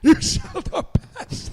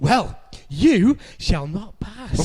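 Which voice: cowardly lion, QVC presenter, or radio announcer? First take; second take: cowardly lion; QVC presenter. First: It sounds like the cowardly lion. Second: It sounds like a QVC sales presenter.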